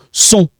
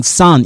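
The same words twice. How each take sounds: First: Sont with a French nasal on; correct sont. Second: Son said like English sun; wrong English son. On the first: Teacher gives the right French sont. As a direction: round the vowel and nasalise it. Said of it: "No, sont". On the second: Teacher shows the English-sounding mistake. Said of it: "I'm not saying son in English". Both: Shown as a demonstration.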